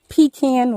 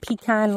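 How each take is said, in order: First: It is said the Pennsylvania way. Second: It is said the Southern way.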